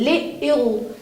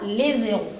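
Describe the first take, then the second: First: Les and héros are said without a linking z. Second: A linking z joins les to héros. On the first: The speaker calls it right. "je ne fais jamais de liaison" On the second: The speaker calls it wrong. "Je ne prononce pas"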